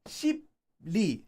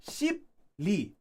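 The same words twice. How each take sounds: No difference in how they are said.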